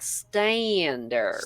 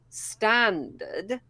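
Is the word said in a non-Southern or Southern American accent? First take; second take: Southern American; non-Southern. First: It is said in a Southern American accent. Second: It is said in a non-Southern accent. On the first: "as a Southern American accent, it's more like standard" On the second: "whereas I would say standard"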